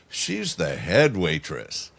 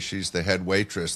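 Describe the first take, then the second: First: It is said suggestively, with an insinuating tone. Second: It is said plainly, with no hidden meaning.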